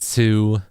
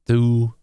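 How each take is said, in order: First: The T is said with a strong puff. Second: The T is said with little breath. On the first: "Aspirated is when it's like very like" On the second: "unaspirated is when it's not very breathy"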